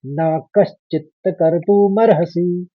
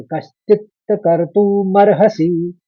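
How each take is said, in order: First: न कश्चित कर्तुमर्हसि slow, stress on कर्तुमर्हसि; slow syllable recitation. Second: कश्चित कर्तुमर्हसि said slowly, श then च clearly, stress on कर्तुमर्हसि; slow syllable recitation. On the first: Teacher repeats the last quarter for students. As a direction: read न कश्चित कर्तुमर्हसि slowly. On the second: Teacher demonstrates the last quarter slowly. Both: Shown as a demonstration. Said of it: "तो इस तरह से पढ़ेंगे आप".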